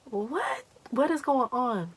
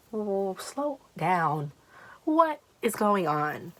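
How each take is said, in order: First: High-pitched, acted bewilderment; bewildered reaction. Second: Slow, drawn-out acted plea; slowing someone down. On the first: Storyteller replaying her reply to the agitated friend, high and baffled. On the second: Storyteller telling her agitated friend to calm down, words drawn out slowly. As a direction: stretch out each word to rein in a friend.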